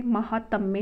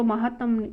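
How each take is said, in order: First: महात्म्य ending in mya; correct form. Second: महात्म ending on m; incorrect form. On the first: Teacher giving the correction, महात्म्य with final ya. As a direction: say महात्म्य as ma-haa-tmya. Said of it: "महात्म्य होता है". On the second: Teacher rejecting the misspelling, महात्म without final ya. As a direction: say महात्म as ma-haa-tam. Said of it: "अशुद्ध है". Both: Shown as a demonstration.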